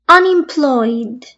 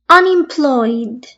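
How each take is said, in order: No difference in how they are said.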